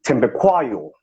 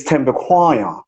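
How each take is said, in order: First: Thembekwayo with an aspirated th and a p sound, said in the Natal way; Natal pronunciation. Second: Thembekwayo said slowly, with a clear b and the last syllable swallowed; corrected pronunciation. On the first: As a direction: say Thembekwayo the way it was said back in Natal. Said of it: "they would say". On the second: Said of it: "your surname is not Thembekwayo, it's". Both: Shown as a demonstration.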